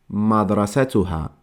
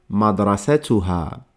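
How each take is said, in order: No difference in how they are said.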